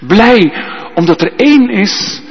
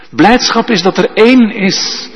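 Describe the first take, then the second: First: Één stretched and hit hard, a bit higher; stress on één. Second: Één stretched and hit hard; stress on één. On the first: Preacher repeating the point, stressing één. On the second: Preacher stressing één to the congregation. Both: Shown as a demonstration. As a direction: lean on één. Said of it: "stress on één".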